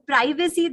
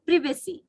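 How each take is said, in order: First: PRIVACY as PRY-vuh-see; wrong privacy. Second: PRIVACY as PRIV-uh-see; correct privacy. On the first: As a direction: say "privacy" with a long i. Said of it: "that is why we are not getting it". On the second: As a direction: model "privacy" with a short i. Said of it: "We should ask for privacy". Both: Shown as a demonstration.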